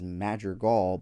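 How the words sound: The name is said with an American English pronunciation. It is easier for people here to understand. "the way I say it here"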